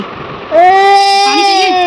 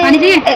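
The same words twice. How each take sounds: First: Put-on "पानी चाहिए" drawn out very slowly, high and teary like a toddler; crying child mimic. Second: Said in the usual way. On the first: Mother imitating her daughter tearfully asking for water. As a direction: drag "पानी" out in a weepy, high child's wail.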